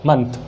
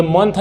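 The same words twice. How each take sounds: First: "मंथ" as "munth", short schwa vowel; correct pronunciation. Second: "मंथ" as "month" with an o; wrong pronunciation. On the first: Teacher modelling a word with m, correct pronunciation. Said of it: "ये मंथ नहीं होता". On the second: Teacher showing what it is not, wrong pronunciation. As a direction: say "मंथ" with a rounded o vowel. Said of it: "नहीं होता". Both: Shown as a demonstration.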